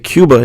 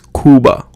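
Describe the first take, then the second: First: The first vowel has a 'y' glide, like 'yoo'. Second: The first vowel is a plain 'oo' without glide. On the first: The speaker calls it wrong. "we say Cuba in English" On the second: The speaker calls it right. "but in Spanish it's Cuba"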